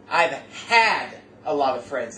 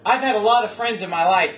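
First: Slow, leaning hard on had in I've had a lot of friends; stress on had. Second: Said in the usual way. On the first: Shown as a demonstration. Preacher stressing the past tense to the church, slow emphasis on had. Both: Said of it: "Let me emphasize the, the term had".

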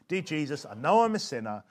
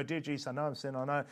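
First: Prayer led in short sections; measured, phrase-by-phrase prayer; small sections. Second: Fast, softer run-on prayer; hurried, mindless recital of a prayer; unthinking rush. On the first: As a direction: lead it a small piece at a time. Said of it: "Do it, do small sections". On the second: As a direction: rattle it off without thinking. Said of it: "they're not really thinking". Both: Shown as a demonstration.

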